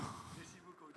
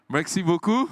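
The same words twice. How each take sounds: First: "Merci beaucoup" breathed unvoiced, barely audible; whispered French thanks. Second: "Merci beaucoup" called out loud and higher, French vowels; playful French thanks. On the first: Host echoes his French joke in a whisper. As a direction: repeat it as a soft aside whisper. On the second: Pretend. Host jokes he speaks French, loud playful thanks. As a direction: show off French, loudly. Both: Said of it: "I know how to speak French".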